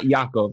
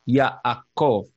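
First: The name is said plainly, without Sephardic sounds. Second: The name is said with fuller Sephardic-style sounds. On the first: The speaker calls it wrong. "It's not Yaakov" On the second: The speaker calls it right. "It's much more authentic sounding"

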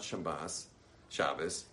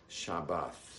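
First: The word ends with an s sound. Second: The word ends with a th sound. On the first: The speaker calls it wrong. "It is not Shabbos" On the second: The speaker calls it right. "It's actually Shabbath. ... the TH is right"

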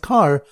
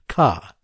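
First: It is said with the final r pronounced. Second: It is said in a Boston accent, r dropped.

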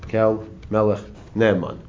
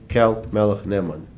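First: The phrase is said a little more slowly. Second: The phrase is said at a normal pace.

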